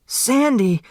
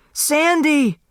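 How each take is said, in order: First: Screaming a name. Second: Even higher, louder desperate scream; the second scream breaks higher still; screaming harder. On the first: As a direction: scream for him as he lies on the floor. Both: Acted. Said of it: "Turtle screamed".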